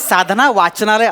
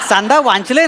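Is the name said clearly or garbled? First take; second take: clearly; garbled. First: Every sound is said clearly and fully. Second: The sounds are garbled and run together. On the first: The speaker calls it right. "साधना वाचनालय असं आहे ते" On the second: The speaker calls it wrong. "नाही सगळंच चुकलंय तुमचं"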